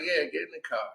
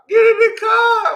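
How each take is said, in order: First: Quiet echo. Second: Very high mock-female shout; imitated yelling. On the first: Retold or imitated. Driver backing the girl's order, hushed echo. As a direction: back up the order under your breath. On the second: Girl ordering her into the car, high shouted imitation. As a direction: squeal the order at full pitch.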